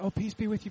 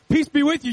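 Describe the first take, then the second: First: It sounds like a casual, routine churchy greeting. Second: It sounds like urgent, earnest reassurance to frightened friends.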